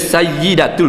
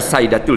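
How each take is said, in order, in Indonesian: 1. Bunyi y di tengah ditahan panjang. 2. Bunyi y di tengah pendek. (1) "Dia Sayyidatul" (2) "bukan Sayyidatul"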